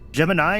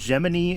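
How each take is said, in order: First: It is said as the constellation's name is said. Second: It is said as the space capsule's name is said. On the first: It names the star constellation. The speaker calls it right. "Gemini is the constellation" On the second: It names the space capsule. The speaker calls it wrong. "Gemini is the capsule because someone at NASA pronounced it wrong"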